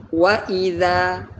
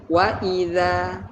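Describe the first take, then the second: The two takes are said the same way.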